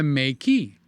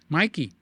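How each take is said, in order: First: The first syllable sounds like 'may'. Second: The first syllable sounds like 'my'. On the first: "it's the month of May and key" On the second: "I say Mikey, like the cereal"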